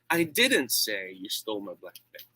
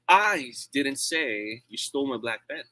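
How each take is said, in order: First: The word "say" carries the main stress. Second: The word "I" carries the main stress. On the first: It was communicated some other way, not said. "I did not do that. Maybe I wrote it" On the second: Someone else said it. "It means I'm not the one who said that"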